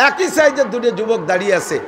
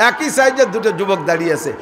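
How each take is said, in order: The two takes are said the same way.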